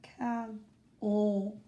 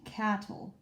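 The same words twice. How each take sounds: First: Cattle said cat-TLE, slow, weight on the last syllable; mock wrong version of cattle; wrong stress on end. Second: Cattle said CAT-tle, weight on the first syllable; stress on first syllable. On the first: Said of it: "I don't say cattle". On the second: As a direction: hit the start of cattle and let the end fall away. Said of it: "the emphasis is on the double T". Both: Shown as a demonstration.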